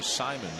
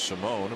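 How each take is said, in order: First: The name is said as Simon. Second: The name is said as Simone. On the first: This is the name's current preferred pronunciation. The speaker calls it right. "changed his desired pronunciation to Simon" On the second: This is the name's former pronunciation. The speaker calls it wrong. "used to be pronounced Simone"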